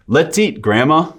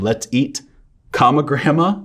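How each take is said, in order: First: "Let's eat," then a breath before "Grandma"; with the pause. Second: "let's eat" then the word "comma" before "Grandma"; comma spoken aloud. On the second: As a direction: spell out the comma, rising on "Grandma". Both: Shown as a demonstration. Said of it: "The difference between".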